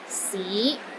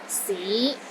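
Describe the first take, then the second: First: The pitch rises from low to middle. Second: The same.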